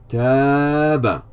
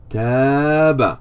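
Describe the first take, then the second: The two takes are said the same way.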